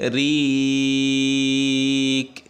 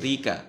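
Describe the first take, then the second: First: The word ends on a consonant sound. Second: The word ends with an open vowel sound. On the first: The reader stops on this word. "আর যদি আমরা থেমে যাই তাহলে কি হবে" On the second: The reader continues without stopping. "এখানে কি যদি না থামি"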